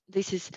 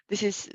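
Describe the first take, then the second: No difference in how they are said.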